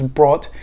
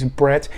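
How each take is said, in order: First: The vowel is like the one in 'brought'. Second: The vowel is like the one in 'brat'. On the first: The speaker calls it wrong. "I thought it was Brought" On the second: The speaker calls it right. "the pronunciation guide is Bratt"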